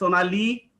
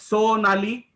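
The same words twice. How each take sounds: First: The final vowel is said long. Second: The final vowel is said short. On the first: "because Li is dirgha or longer" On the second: "you could pronounce it as Sonali"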